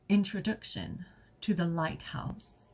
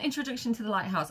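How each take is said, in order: First: It is read in a put-on character voice. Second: It is read in the speaker's normal voice.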